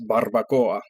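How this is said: It is said with a Spanish accent. The speaker calls it right. "it's pronounced barbacoa"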